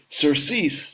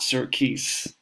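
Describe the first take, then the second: First: The c is said like an s. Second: The c is said like a k. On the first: The speaker calls it right. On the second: The speaker calls it wrong.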